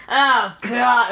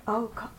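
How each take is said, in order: First: Groaned, higher mock-annoyed reaction; put-on fed-up groan; eye-rolling exasperation. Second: Small, hushed mock-fearful reaction; softly imitating someone spooked; mildly scared. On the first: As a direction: roll your eyes through the words. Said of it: "roll my eyes". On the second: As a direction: shrink back and say it under your breath. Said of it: "get scared".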